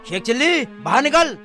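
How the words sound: It is shouted in an angry tone.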